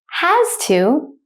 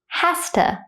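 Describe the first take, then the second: First: It is said slowly with each word clear. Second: It is said fast with a reduced schwa. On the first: "I will say it slowly first" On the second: "at a native speaker speed second"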